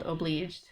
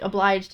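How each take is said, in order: First: "obliged" said as "oh-BLEEJD"; spelling pronunciation. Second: Said in the usual way. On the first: Shown as a demonstration. Reader explaining the dog's dialect spelling, "obliged" pronounced "o-bleejed". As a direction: say "obliged" with an EE in its second syllable. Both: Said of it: "obliged is spelled obliged".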